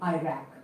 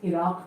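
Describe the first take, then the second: First: Iraq is said in an American way. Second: Iraq is said in a non-American way. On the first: The speaker calls it wrong. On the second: The speaker calls it right.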